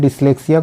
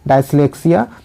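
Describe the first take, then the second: First: The first syllable sounds like 'dis'. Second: The first syllable sounds like 'die'. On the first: The speaker calls it right. "डिसलेक्सिया को" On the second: The speaker calls it wrong. "यहाँ पर इसका उच्चारण गलत दिया हुआ है"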